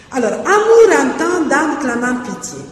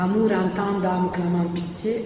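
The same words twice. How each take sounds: First: Amour entend dame clamant pitié read as a line of verse, higher and louder; verse recited for the class; reciting a verse draft. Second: Amour entend dame clamant pitié read again, softer, as if testing it; verse repeated in a trial tone. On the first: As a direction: declaim the line and weigh its rhythm. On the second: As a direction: read the line back quietly to judge it. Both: Shown as a demonstration. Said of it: "il n'aime pas".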